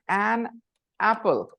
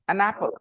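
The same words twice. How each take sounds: First: The n of 'an' is kept separate from 'apple'. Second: The n of 'an' runs straight into 'apple'. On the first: "you say an apple" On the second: "They say"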